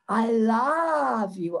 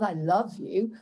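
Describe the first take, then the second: First: The vowel in love is an open ah. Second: The vowel in love is a short uh. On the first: The speaker calls it right. "Open vowels" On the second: The speaker calls it wrong. "Not I love you"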